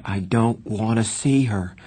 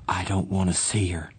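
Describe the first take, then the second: First: Insistent refusal, pitch lifting slightly; voice rising. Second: Firm. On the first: Johnny insisting he won't see his mother, rising. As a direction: stress each word, mildly heated. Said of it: "His voice was rising". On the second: Johnny refusing his mother's visit, firm. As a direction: refuse evenly, without raising the voice. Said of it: "he said firmly". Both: A narrator's reading.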